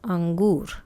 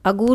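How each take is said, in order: First: The first syllable has a nasal sound. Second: The first syllable has no nasal sound. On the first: The speaker calls it right. "अंगूर होते हैं" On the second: The speaker calls it wrong. "नहीं"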